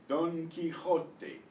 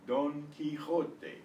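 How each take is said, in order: Both takes have the same delivery.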